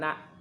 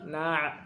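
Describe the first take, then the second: First: It ends in a plain glottal stop. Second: It ends in a tight throaty ain sound. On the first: The speaker calls it wrong. "bukan na'" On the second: The speaker calls it right. "Tapi na', karena hamzah dengan ain beda"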